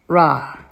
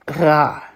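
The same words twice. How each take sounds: First: The r is made like an American r. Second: The r is made low in the throat. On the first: "I'll pronounce it a little bit more the way that maybe Americans would" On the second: "doing the resh really low in your throat"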